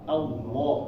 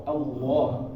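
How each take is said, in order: The two takes are said the same way.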